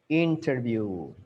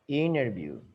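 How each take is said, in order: First: The T in the middle is clearly pronounced. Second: The T in the middle is dropped. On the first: "British, they pronounce the T" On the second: "In American, they try to avoid the T"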